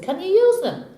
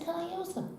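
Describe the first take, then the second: First: High-pitched questioning barman; barman's question. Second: High, very soft echoed question; cowboy's echo. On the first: Barman asks cowboy about his guns, high questioning. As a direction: ask it high, at full voice. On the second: Cowboy answers barman about his guns, soft echo. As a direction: echo it back high and hushed. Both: Acted.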